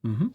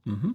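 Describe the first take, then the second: No difference in how they are said.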